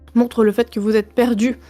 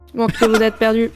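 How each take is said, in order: First: It is said in his normal voice. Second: It is said in a put-on robot voice.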